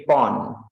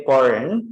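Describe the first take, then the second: First: "porn" without the r, drawn out slowly; British pronunciation. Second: "porn" with the American r; American pronunciation. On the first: Teacher summing up for students, British pronunciation. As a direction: drop the r in "porn", British style. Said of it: "British people say porn". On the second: Teacher summing up for students, American pronunciation. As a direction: sound the r in "porn", American style. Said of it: "in America say porn". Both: Shown as a demonstration.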